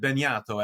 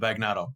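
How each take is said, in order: First: The name is said with Italian pronunciation. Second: The name is said with English pronunciation. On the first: "the proper Italian pronunciation of my name" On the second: "as opposed to"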